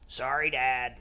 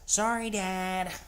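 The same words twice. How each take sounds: First: It is said in a normal voice. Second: It is said in a high, whiny voice.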